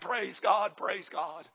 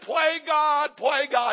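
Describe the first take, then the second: First: The s sound is said clearly. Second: The s sound is lisped or dropped. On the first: "He was saying" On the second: "He spoke with a lisp"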